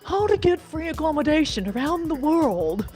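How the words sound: It is said in an exaggerated put-on voice. The speaker calls it wrong. "I need to put on my my Istanbul satchel voice"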